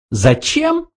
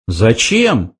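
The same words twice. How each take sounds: First: Very high, rising little question; questioning mouse. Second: Said in the usual way. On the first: A narrator's reading. Mouse tests a question against the answer, high rising voice. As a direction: try the question out, squeaky high. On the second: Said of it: "перебил Артур".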